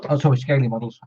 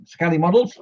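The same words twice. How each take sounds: First: "Scaly" said with a long "ay", like "scale-y"; "Scaly Models" fixed, "Scaly" rhyming with "daily"; corrected pronunciation. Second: "Scaly" said with a short "ah", like "skally"; "Scaly Models" with "Scaly" rhyming with "Sally"; wrong pronunciation. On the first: Streamer correcting himself on a viewer's channel name, "Scaly" as "scale-y". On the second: Streamer misreading a viewer's channel name, "Scaly" as "skally". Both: Real, not acted. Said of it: "I keep pronouncing it right, Dad, and then wrong and right".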